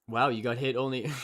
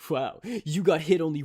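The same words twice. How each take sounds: First: It is said in a normal speaking voice. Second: It is said in a put-on anime voice.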